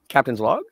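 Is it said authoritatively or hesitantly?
hesitantly. It is said tentatively, like a question.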